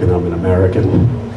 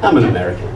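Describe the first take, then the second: First: It is said as a solemn, support-group confession. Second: It is said as an excusing, self-justifying remark. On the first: Nationality is admitted like an addiction. "it almost sounds like we belong in A A, Americans Anonymous" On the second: Nationality is offered as an excuse for behavior. "the second way we say it, it's an excuse"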